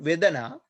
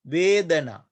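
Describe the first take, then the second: First: The first vowel is short. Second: The first vowel is long. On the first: The speaker calls it wrong. "Not Vedana" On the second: The speaker calls it right. "we pronounce it as a lone vowel"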